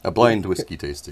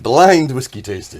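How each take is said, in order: First: It is said at normal volume. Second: It is said louder.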